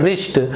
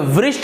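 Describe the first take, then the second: First: The word begins with no w sound. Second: The word begins with a w sound. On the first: The speaker calls it right. "इसे हम उच्चारण करते हैं रिष्ट" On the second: The speaker calls it wrong. "इसे वृष्ट नहीं पढ़ेंगे क्योंकि डब्ल्यू का उच्चारण वह होता है"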